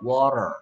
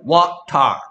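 First: The t is softened, like a light r. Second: The t is pronounced fully and crisply. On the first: "근데 힘을 빼면 water 이렇게 되거든요" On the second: "원래는 water 이렇게 해야 돼"

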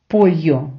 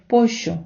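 First: The double L sounds like an English y. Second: The double L sounds like an English sh. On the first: "вони не кажуть «пойо»" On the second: "вони кажуть «пощо»"

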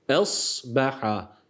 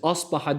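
First: The opening sound is light and thin. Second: The opening sound is heavy and thick. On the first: The speaker calls it right. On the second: The speaker calls it wrong.

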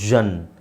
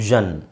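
The two takes are said the same way.

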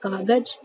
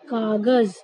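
First: The final consonant is pronounced like j. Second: The final consonant is pronounced like z. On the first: The speaker calls it wrong. "लेकिन आप लोग इसको क्या पढ़ते हैं" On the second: The speaker calls it right. "यानी इसको हम कागज नहीं बोलेंगे, क्या बोलेंगे"

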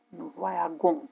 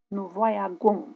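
First: The consonant before the ending is a hard g. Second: The same.

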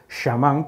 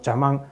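First: The word begins with an sh sound. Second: The word begins with a ch sound. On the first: The speaker calls it right. "Sería mejor decir" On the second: The speaker calls it wrong. "una forma bastante incorrecta de pronunciar esa sibilante inicial"

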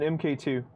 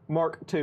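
First: The name is read as separate letters M K. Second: The name is read as the word Mark. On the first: The speaker calls it wrong. "not MK" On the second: The speaker calls it right. "People like me to say Mark II"

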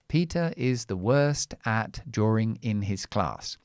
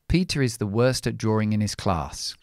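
First: The words are said slowly and kept separate. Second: The words are said quickly and linked together. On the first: This is careful, word-by-word speech. "if I say this sentence slowly" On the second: This is natural conversational speech. "We speak quickly. So I would say"

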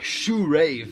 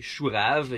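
First: It is pronounced with an English pronunciation. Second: It is pronounced with a French pronunciation. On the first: It sounds like shoe and rave, a pun. "if you pronounce it in English, it sounds like rave" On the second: It names a root vegetable. "in French you say chourave"

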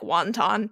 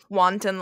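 First: The word is said like the food 'wonton'. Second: The word is said as 'wanton'. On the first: The speaker calls it wrong. "like wanton" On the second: The speaker calls it right. "she said wanton"

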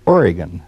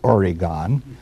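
First: Oregon is said with the local pronunciation. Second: Oregon is said with the Eastern pronunciation. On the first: The speaker calls it right. "O-R-E-G-O-N is pronounced Oregon" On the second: The speaker calls it wrong. "not Oregon"

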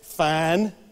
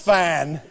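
First: It sounds happy and content. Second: It sounds angry and threatening.

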